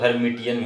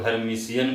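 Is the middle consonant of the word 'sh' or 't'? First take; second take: t; sh. First: The middle consonant sounds like 't'. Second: The middle consonant sounds like 'sh'. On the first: "कुछ लोग हर्मिटियन भी बोलता है" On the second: "कुछ लोग हर्मिशियन भी बोलता है"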